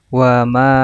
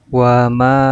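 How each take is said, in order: The two takes are said the same way.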